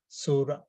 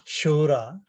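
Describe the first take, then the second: First: It begins with a sound between s and sh. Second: It begins with a full sh sound. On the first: The speaker calls it right. "It is between the two" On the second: The speaker calls it wrong. "typically this is pronounced as uh"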